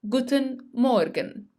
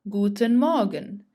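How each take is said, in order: First: The R in Morgen is clearly pronounced. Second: The R in Morgen is not pronounced. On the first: The speaker calls it wrong. "I hear many German learners who say" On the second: The speaker calls it right. "Notice that the R is silent"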